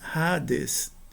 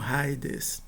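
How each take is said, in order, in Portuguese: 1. A primeira vogal é um som de "a" simples. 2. A primeira vogal desliza para um som de "ee". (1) "A gente pronuncia Hades" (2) "não Haides"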